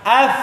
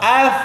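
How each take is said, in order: Both takes have the same delivery.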